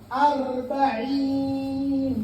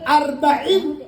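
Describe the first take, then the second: First: The vowel is drawn out long. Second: The vowel is kept short. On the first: It means forty. "Kalau yang empat puluh namanya arba'in, panjang" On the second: It means four. "Kalau pendek arba'in empat"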